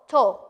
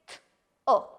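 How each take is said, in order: First: The word is said whole with an oo vowel. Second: The word is sounded out as two separate parts. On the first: The speaker calls it right. "It sounds to" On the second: The speaker calls it wrong. "You don't say t, oh"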